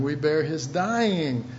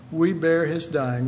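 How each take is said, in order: First: "We bear his dying" said slowly, each word weighed; slow it down so it sinks in; slow emphatic repeat. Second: Said in the usual way. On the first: Shown as a demonstration. Preacher repeating the line slowly for the congregation.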